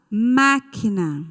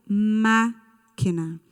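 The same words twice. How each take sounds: First: "máquina" slowly, with a long strong "má"; stress on first syllable. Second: "máquina" split after a long "má", pause, then "quina"; syllable break. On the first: Teacher giving pupils the next word, slow stressed "má" in "máquina". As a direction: lean on the "má" of "máquina". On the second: Teacher confirming the tonic syllable, "máquina" broken after "má". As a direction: hold "má", pause, finish "máquina" lightly. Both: Shown as a demonstration. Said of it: "Qual é a sílaba tônica".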